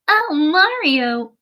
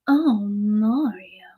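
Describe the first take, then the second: First: It is said in an anime girl voice. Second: It is said in a Bowsette voice.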